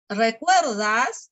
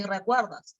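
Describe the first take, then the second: First: "recuerdas" drawn out with a final rise; questioning intonation. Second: "recuerdas" with a falling end; statement intonation. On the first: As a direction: make "recuerdas" a slow question. («recuerdas» con entonación interrogativa) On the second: («recuerdas» con entonación afirmativa) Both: Shown as a demonstration. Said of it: "la entonación".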